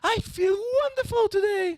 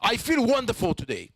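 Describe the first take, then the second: First: It is said in a happy tone. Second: It is said in a sad tone.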